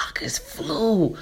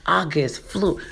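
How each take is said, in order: First: Soft unvoiced whisper of August flew; hushed aside, August flew. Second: Said in the usual way. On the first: Real, not acted. Whispered aside about the month.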